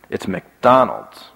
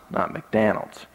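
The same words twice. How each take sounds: First: Slow, careful "McDonald's" with open "Don" vowel; corrected pronunciation. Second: "McDonald's" softer, with DON said like "Dan"; the wrong "McDonald's", flat A in the middle; child's wrong pronunciation. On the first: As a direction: say "McDonald's" slowly, standard, stressing DON. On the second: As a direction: say "McDonald's" as "McDanald's". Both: Retold or imitated.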